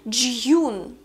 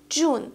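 First: The vowel has a y glide before the oo. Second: The vowel is a plain oo without a y glide. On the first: The speaker calls it wrong. "Что это за кошмар?" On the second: The speaker calls it right. "Не Ю, а просто У"

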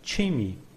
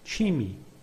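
Both takes have the same delivery.

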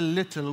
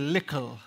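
First: The middle consonant is a t sound. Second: The middle consonant is a k sound. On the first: This is the form people elsewhere use. "we don't say little" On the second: This is the form used in Antigua. "in Antigua, we say lickle"

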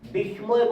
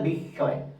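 First: An m sound follows the s sound. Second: The s sound is doubled with no m. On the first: The speaker calls it wrong. "এটার উচ্চারণ বিস্ময় বললে ভুল হবে" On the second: The speaker calls it right. "এটার উচ্চারণ হবে বিস্ময়"

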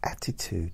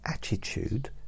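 First: The middle consonant sounds like a clear 't'. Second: The middle consonant sounds like 'ch'. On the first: The speaker calls it right. "It's T, not ch" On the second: The speaker calls it wrong. "It's T, not ch"

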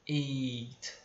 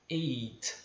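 Both takes have the same delivery.

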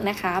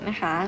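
No difference in how they are said.

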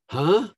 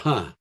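First: The pitch rises at the end of the word. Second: The pitch falls at the end of the word. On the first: "Up or down?" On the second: "Up or down?"

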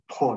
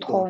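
First: The first consonant is aspirated. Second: The first consonant is unaspirated. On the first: The speaker calls it right. "我们把它送气，就是妥囊" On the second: The speaker calls it wrong. "不是妥"

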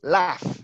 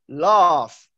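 First: A northern English accent with a short 'a' vowel. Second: A southern English accent with a long 'ah' vowel. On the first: "if you hear someone from the north of England, they pronounce it like this" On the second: "I am from London, which is in the south. So when I pronounce the letter A, I pronounce it like this. Ah"

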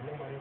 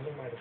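The two takes are said the same way.

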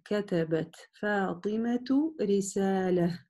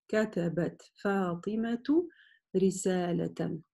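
First: The last word ends with a soft h. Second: The last word ends with a full -tan.

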